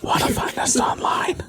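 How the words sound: It is softly whispered, ASMR style.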